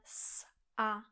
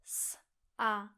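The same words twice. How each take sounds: First: A tiny pause separates the s and a. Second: A tiny pause separates the s and a.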